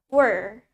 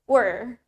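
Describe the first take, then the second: First: It is said in American English, with clear R. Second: The same.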